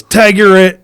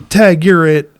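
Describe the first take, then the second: First: Higher and louder taunt; agent's gleeful payback; bigger taunt. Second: A touch higher, bright taunt; friend's taunt at agent; playful taunt. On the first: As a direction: shout the payback. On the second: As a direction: tease the agent. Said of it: "And he goes". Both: Retold or imitated.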